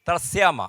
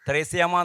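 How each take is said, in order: First: The first vowel is a short 'a' sound. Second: The first vowel is a long 'e' sound. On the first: The speaker calls it right. "ത്രസ്യാമ എന്നാണ് അതിൻ്റെ പേര്" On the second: The speaker calls it wrong. "എന്നല്ല"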